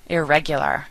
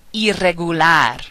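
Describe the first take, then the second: First: Said in the usual way. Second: Spanish "Irregular", as "ee-rreh-goo-LAR"; Spanish rolled R. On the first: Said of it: "similar and mean the same thing". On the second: Shown as a demonstration. Teacher giving words to practice, rolled R in "Irregular". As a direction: trill the RR in "Irregular". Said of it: "the rolling R sound".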